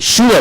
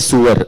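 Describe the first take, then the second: First: The word sounds like 'sure'. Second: The word sounds like 'sewer'. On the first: The speaker calls it right. "You say S U R E, sure" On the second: The speaker calls it wrong. "They'll say sewer"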